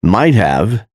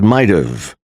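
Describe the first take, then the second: First: Said in the usual way. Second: "might've" as MITE-uv; reduced "might've", h dropped; contracted might've. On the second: Shown as a demonstration. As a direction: run "might've" together with a weak "uv". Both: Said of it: "is pronounced as".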